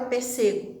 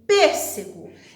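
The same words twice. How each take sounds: First: The stress falls on the second syllable. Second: The stress falls on the first syllable. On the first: The speaker calls it wrong. "E não tem a palavra pêssego" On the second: The speaker calls it right. "a sílaba tônica aqui é o P"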